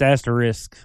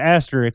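First: The word ends with an 'isk' sound. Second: The word ends with an 'ik' sound. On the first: The speaker calls it right. "but it's actually ISK. It's asterisk" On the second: The speaker calls it wrong. "I've always said asterisk like it's IK"

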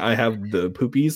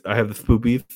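First: It is said plainly, without a lisp. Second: It is said with a put-on lisp.

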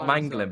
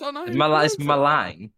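First: The name is said as Manglin. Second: The name is said as Malang. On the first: The speaker calls it wrong. "it's not Manglin" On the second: The speaker calls it right.

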